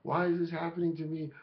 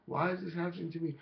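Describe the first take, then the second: No difference in how they are said.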